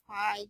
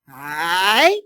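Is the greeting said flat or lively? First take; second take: flat; lively. First: The greeting is flat and monotone. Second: The greeting is lively and friendly. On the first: The speaker calls it wrong. "they used the monotone voice" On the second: The speaker calls it right. "teach you how to say hi"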